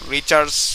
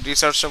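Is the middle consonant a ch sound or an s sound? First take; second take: ch sound; s sound. First: The middle consonant is a ch sound. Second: The middle consonant is an s sound. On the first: The speaker calls it wrong. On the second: The speaker calls it right.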